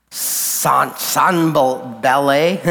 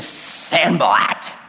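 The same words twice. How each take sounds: First: Unsure, drawn-out Sanballat with silent t, French-style; Sanballat as "sahn-bah-LAY". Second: Sanballat said "SAN-buh-lat", ending in a crisp t; Sanballat with hard final t. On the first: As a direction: try Sanballat slowly as a questioning "sahn-bal-lay". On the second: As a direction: say Sanballat as spelled, final t sounded. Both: Shown as a demonstration. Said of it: "I don't know".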